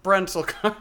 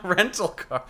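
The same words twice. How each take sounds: First: "Rental" said with a b sound in front, as "Brental"; Brental car. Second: Said in the usual way. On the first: Real, not acted. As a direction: slip a b onto "Rental". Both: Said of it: "did you call them Brental cars?".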